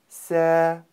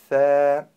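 First: The consonant is made as a hissing s sound. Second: The consonant is made with the tongue between the teeth. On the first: The speaker calls it wrong. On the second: The speaker calls it right.

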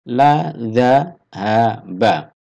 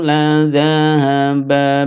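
First: Each syllable is separated by a pause. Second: The syllables flow together without pauses.

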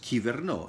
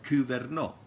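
First: It is said with modern Greek pronunciation. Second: It is said with ancient Greek pronunciation. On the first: "In Greek, it is pronounced as" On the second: "In ancient Greek, it was pronounced like"

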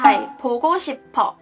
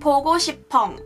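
First: The ending is said plainly without nasal sound. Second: The ending is said with an added nasal sound. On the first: "韩文就是" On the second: "如果可爱啲加个鼻音咧，就变咗做"

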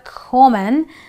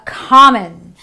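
First: The first vowel is not an 'ah' sound. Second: The first vowel is an open 'ah' sound. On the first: The speaker calls it wrong. "not a common" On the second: The speaker calls it right. "the O in this word gives me the R sound"

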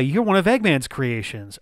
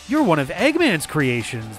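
First: It is said casually, as an offhand remark. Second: It is said with sudden surprised realization. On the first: The fact is already known and unremarkable. The speaker calls it wrong. "a bad bad line reading where it's like, oh yeah" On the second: The fact has only just been realized. The speaker calls it right. "Like that realization has just hit him"

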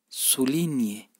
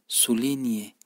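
The two takes are said the same way.

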